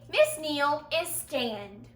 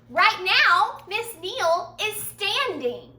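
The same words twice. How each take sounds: First: "stand" said without the ing ending, slow; "Miss Neal is stand" said slowly as a wrong example; wrong form. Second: Said in the usual way. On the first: Shown as a demonstration. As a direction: drop the ing from "stand" on purpose. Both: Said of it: "I wouldn't say".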